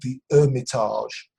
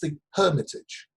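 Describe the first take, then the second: First: The H at the start is silent. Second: The H at the start is pronounced. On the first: The speaker calls it wrong. "the narrator was saying the Hermitage" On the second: The speaker calls it right. "There's an H there"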